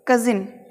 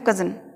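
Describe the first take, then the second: First: The second vowel is a clear 'i'. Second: The second vowel is a short reduced 'uh'. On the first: The speaker calls it wrong. "हमें इसे कजिन नहीं बोलना है" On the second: The speaker calls it right. "हमें बोलना है कजन"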